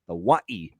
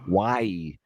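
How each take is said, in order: First: The 'wa' syllable is strongly stressed. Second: The 'wa' syllable is not specially stressed. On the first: This is how people on the island say it. "they really stress the wa" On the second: This is how the speaker has always said it. "And I'm just saying Hawaii"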